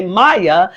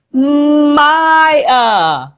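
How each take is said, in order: First: Said in the usual way. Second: "Maya" stretched very long, high in pitch; exaggerated two syllables. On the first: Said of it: "I'll say". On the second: Shown as a demonstration. Teacher revealing the name to class, exaggerated "Maya". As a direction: draw out both syllables of "Maya". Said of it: "your name has two syllables".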